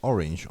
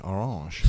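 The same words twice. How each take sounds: First: Said in the usual way. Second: "orange" said the French way, stressed on the end; French pronunciation. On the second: Shown as a demonstration. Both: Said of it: "they pronounce orange, orange".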